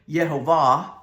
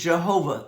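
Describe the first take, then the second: First: The name begins with a Y sound. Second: The name begins with a J sound. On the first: This is closer to how it is said in Hebrew. "I think in Hebrew it's more" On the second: This is how English speakers say it. "That's the English pronunciation"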